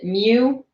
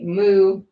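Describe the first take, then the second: First: The word is said like 'mew'. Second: The word is said like 'moo'. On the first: "if you want to pronounce it Mew, you're allowed to do that as well" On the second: "it's pronounced that way"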